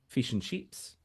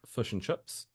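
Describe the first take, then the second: First: The vowel in fish is a higher i sound. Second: The vowel in fish sounds close to a u. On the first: "Australians would go fish and chips, kind of like a higher I" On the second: "New Zealanders would go like fish and fish and chips, like so kind of like a U"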